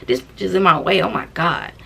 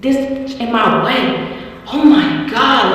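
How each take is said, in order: First: Said in the usual way. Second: Slow drawled road rage quote; slow imitated friend. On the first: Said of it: "it came out so normal for her". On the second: Imitating the friend driving, slow drawled complaint. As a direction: drag it out like the friend. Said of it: "She was like".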